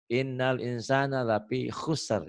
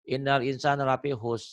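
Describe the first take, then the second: First: Innal insana lafi khusr, slow, with the final R audible; careful slow recitation ending in both consonants of khusr; correct stop demonstration. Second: Innal insana lafi khus ending on a bare S; recited line with khus missing its last consonant; wrong stop demonstration. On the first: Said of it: "Itu wakaf isyarah ya". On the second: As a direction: drop the final R, stopping at khus. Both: Shown as a demonstration.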